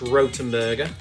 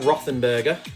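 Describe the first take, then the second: First: The middle consonant is a plain t. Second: The middle consonant is a th sound. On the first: The speaker calls it right. "That's how you pronounce it" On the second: The speaker calls it wrong. "even though it looks like Rothenberger"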